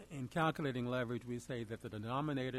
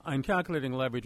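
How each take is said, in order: First: Softly spoken, hard to hear; too quiet. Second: Speaking up. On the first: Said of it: "can you speak up a little bit". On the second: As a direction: raise the volume to be heard. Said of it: "can you hear me now". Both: Real, not acted.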